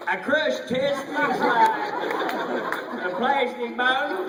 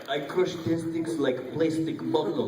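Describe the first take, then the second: First: Imitating a costar's Russian accent; Norman's Russian attempt. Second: Slow, heavy mock Russian accent; slow comic Russian accent. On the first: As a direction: copy the Russian line clumsily. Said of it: "Norman goes". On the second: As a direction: lay on a thick Russian accent. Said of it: "you have to go Russian".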